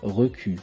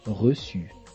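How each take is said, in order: First: The middle consonant is a K sound. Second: The middle consonant is an S sound. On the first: The speaker calls it wrong. "Sans la cédille, on aurait le son que. Et on devrait lire « recu »" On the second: The speaker calls it right. "Le participe passé de recevoir se lit reçu. On met une cédille à la lettre C pour avoir le son S"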